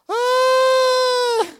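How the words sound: The exclamation sounds flat and unhappy. The speaker calls it wrong. "That didn't sound too joyful"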